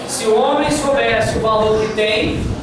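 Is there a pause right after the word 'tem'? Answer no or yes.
yes. The speaker pauses right after 'tem'. The woman is the one who would search for the man. "e aqui você estabelecesse uma pausa"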